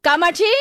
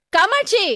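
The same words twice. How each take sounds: First: Questioning call, rising at the end; tentative first call into the house. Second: Higher-pitched call into the house; raised, insistent summons. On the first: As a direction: call a neighbour to see if she's home. Neighbour calls for Kamatchi at door. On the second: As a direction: call out the name urgently. Neighbour calls again, more insistent. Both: Acted.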